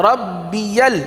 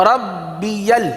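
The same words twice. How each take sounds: No difference in how they are said.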